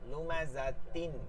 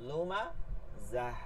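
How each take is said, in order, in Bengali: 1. শব্দটি t ধ্বনি ও একটি স্বরধ্বনি দিয়ে শেষ হয়। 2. শব্দটি h ধ্বনি দিয়ে শেষ হয়। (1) "মিলাই পড়লে" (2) "যখন থামবেন তখন তার নিচের গোল হায়ের ব্যবহার করতে হবে"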